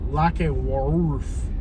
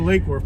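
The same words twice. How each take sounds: First: The name is said the local residents' way. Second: The name is said the common, widespread way. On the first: This is how residents of the town say it. "the locals actually pronounce it Lake Worth" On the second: This is how most outsiders say it. "most people say Lake Worth"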